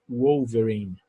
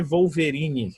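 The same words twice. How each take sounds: First: "Wolverine." begun with a U-like glide, owverine; W as U sound. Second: "Wolverine" said with a V, as vowverine; wrong V sound. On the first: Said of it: "Eles falam". ("Wolverine." com som de U) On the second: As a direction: start "Wolverine" with a Portuguese V. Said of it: "não é Wolverine que eles falam". ("Wolverine" com som de V) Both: Shown as a demonstration.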